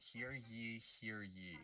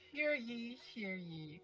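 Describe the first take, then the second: First: It is said in the speaker's own voice. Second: It is said in a put-on female character voice.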